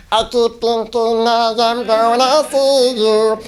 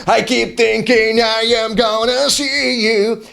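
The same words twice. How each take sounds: First: Slow sung line, strained and squeaky high; chipmunk voice. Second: Slow sung rock line, high and held; rocker singing. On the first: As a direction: sing it like a chipmunk. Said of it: "I sound like this". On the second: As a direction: sing it like a rock ballad. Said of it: "I'm supposed to sound like". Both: Shown as a demonstration.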